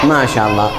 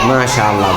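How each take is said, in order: No difference in how they are said.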